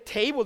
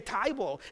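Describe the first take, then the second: First: The vowel sounds like 'ay' as in day. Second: The vowel sounds like 'eye' as in tie. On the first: "instead of saying table" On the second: "they say tieball"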